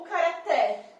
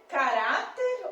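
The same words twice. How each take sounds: First: Caraté with the final "té" long and open; stress on last syllable. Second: Caráter slow and loud on "rá"; stress on middle syllable. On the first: Teacher testing a wrong option, caraté stressed on "té". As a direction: throw the weight onto "té" in caraté. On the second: Teacher testing options, caráter stressed on "rá". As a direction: punch the "rá" in caráter. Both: Shown as a demonstration. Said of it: "Caráter leva acento".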